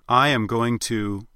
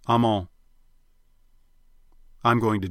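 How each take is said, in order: First: The phrase is said in full, uncontracted. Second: The phrase is contracted and run together. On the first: "instead of saying I am going to" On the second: "you'll tend to say something more like"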